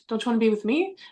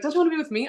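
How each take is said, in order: First: It sounds confused and questioning. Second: It sounds flirty and playful.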